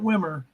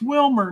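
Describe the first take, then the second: First: No L sound is heard before the M. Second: An L sound is heard before the M. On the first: The speaker calls it wrong. "not Wimmer" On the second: The speaker calls it right. "it's Wilmer"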